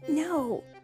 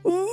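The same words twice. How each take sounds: First: It is said quietly. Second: It is yelled very loudly.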